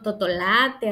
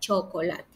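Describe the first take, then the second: First: The word starts with a t sound. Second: The word starts with a ch sound. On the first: The speaker calls it wrong. "tampoco las distorsiona" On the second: The speaker calls it right. "ya diga chocolate"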